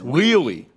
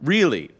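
First: The word starts with a W sound. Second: The word starts with a normal R sound.

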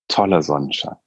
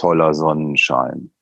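First: It is said in a warm, enthusiastic tone. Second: It is said in an ironic, grumbling tone. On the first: The weather is truly great. "das ist ein super Wetter, das ist total fantastisch" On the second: The weather is actually bad. "was ist denn das hier für ein Wetter"

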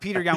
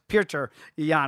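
First: The name is said with an Americanized pronunciation. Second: The name is said with its traditional pronunciation. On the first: The speaker calls it wrong. "the Americanized bastard version that we do" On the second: The speaker calls it right. "traditional pronunciation"

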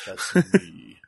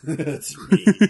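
First: It is said in a Shao Kahn impression. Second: It is said in his normal voice.

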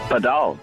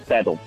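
First: The word is said the original international way. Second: The word is said like English paddle. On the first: This is how the sport is named elsewhere in the world. The speaker calls it right. "The original name is Padal" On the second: This is how people in South Africa name the sport. The speaker calls it wrong. "the South African way is paddle"

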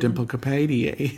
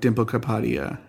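First: The a vowels are pronounced the English way. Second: The a vowels are pronounced the Hindi way. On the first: The speaker calls it wrong. "instead of" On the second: The speaker calls it right. "any time you see an A in a Hindi word, it's usually a"

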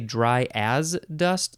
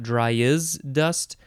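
First: The middle word sounds like 'as'. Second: The middle word sounds like 'is'. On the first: The speaker calls it right. "I would want to say dry as dust" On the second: The speaker calls it wrong. "not dry is dust"

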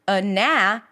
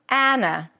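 First: The first vowel is a weak schwa sound. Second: The first vowel is the open 'cat' vowel. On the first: "schwa, and then the as in cat" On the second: "they switch places"

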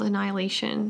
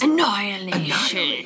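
First: The word is said plainly, without extra flair. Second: The word is said dramatically, with extra flair.

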